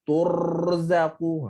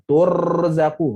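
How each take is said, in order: First: Slow "turzaku" with the r rolled too long; long trill. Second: "Turzaku" with a loud, brief r roll; short trill. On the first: Teacher demonstrates an over-long trill to avoid. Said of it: "Ha, itu panjang". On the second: Teacher models the correct short r trill. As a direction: tap the r in "Turzaku" once, short. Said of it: "Ra pendek je". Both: Shown as a demonstration.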